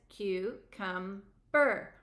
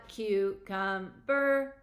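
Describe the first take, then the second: First: Very slow, one beat per syllable; counting syllables slowly. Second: Slow, flat robotic syllables. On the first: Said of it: "Count it". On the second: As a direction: say it like a robot, very slowly. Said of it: "Say it like a robot". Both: Shown as a demonstration.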